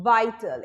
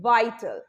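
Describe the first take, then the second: No difference in how they are said.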